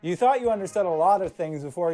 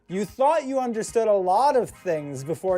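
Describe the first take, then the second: First: It is read flatly, without any expression. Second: It is read with lively, interpreted expression. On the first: The speaker calls it wrong. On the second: The speaker calls it right.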